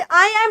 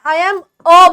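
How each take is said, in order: First: "I am a" with the final a said as a full "e"; wrong pronunciation. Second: "I am a" with the final a reduced to a short "a"; right pronunciation. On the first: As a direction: end "I am a" on a clear "e". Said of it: "नहीं बोलेंगे". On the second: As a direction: end "I am a" on a short, light "a". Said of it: "बोलेंगे". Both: Shown as a demonstration.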